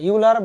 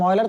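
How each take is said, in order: First: The name begins with a 'yoo' sound. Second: The name begins with an 'oy' sound. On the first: The speaker calls it wrong. "ইউলার বলে অনেকে, ভুলেও কি বলা যাবে না" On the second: The speaker calls it right. "তার কি বলতে হবে অয়লারই বলতে হবে"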